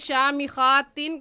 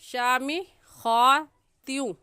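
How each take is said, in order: First: The final n is pronounced clearly. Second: The final n merges into a nasalized glide. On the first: The speaker calls it wrong. "कहना गलत है" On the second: The speaker calls it right. "सही है"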